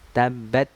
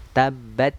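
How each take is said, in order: The two takes are said the same way.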